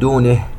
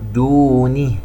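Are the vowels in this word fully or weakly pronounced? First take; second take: weak; full. First: The vowels are weakly articulated. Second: The vowels are fully articulated. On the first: The speaker calls it wrong. "لا نقول" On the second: The speaker calls it right. "نحقق الحركات"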